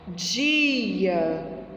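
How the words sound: The vowel is drawn out and prolonged. This is how it sounds in Rio de Janeiro. "o carioca, ele tem mania de prolongar a vogal"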